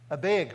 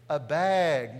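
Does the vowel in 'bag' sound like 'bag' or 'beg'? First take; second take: beg; bag. First: Bag is said with a northern Minnesota 'beg' vowel. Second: Bag is said with the speaker's usual 'bag' vowel.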